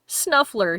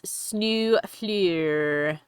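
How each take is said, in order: First: It is said in a plain English accent. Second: It is said in a put-on French-style accent. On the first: "because Snuffler isn't fancy enough for Orlais" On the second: "so I say it like he does"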